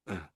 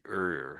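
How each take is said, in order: First: The vowel is plain, with no r sound. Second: The vowel is colored with an r sound. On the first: "normally it's this sort of" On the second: "The Americans say er"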